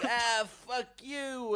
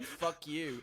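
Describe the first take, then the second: First: High, loud, drawn-out insult; mock outraged yell. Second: Acted taxi driver's brush-off; mock curt retort. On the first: Taxi driver swears at a would-be passenger, mock outraged yell. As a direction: stretch it into a hammed-up yell. Insult acted again, escalated. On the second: Taxi driver answers a would-be passenger, mock curt retort. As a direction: toss out the insult as a quoted retort.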